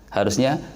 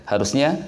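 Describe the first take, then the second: Both takes have the same delivery.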